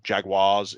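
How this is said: The word is said in an American accent.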